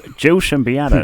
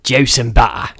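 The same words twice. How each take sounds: First: Imitating a New York PI. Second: Cockney accent. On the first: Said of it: "a P I in, like, a black and white film". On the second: Shown as a demonstration. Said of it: "give us your best Cockney juice and butter".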